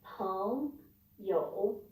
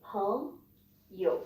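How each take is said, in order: First: YOU dipping, then rising, after peng; falling-rising tone. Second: YOU short and low after a rising peng; low third tone. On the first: Teacher showing how not to say friend, dipping-rising YOU. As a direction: give you the full fall and rise in peng you. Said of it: "you don't need to say". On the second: Teacher showing how to say friend, low short YOU. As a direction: keep you low with no final rise. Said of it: "You just say". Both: Shown as a demonstration.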